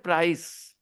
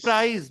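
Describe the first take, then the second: First: The word ends with a hissing S sound. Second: The word ends with a buzzing Z sound. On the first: The speaker calls it right. "They don't say price" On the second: The speaker calls it wrong. "C is not pronounced as Z, but they say"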